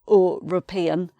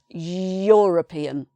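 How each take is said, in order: First: The word begins with a plain 'e' vowel. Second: The word begins with a 'y' sound. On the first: The speaker calls it wrong. "it's not e, e, European" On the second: The speaker calls it right. "you're making a y sound"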